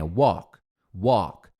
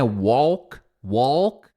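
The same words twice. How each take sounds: First: "walk" without any L, like "wok"; silent L. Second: "walk" with an audible L; wrong pronunciation. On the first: Teacher correcting the error, silent L in "walk". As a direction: drop the L from "walk", pitched low. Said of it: "Esse L não tem". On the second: Teacher showing the error to avoid, L voiced in "walk". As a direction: sound the L in "walk" as a mistake. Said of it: "Você não vai falar esse L". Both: Shown as a demonstration.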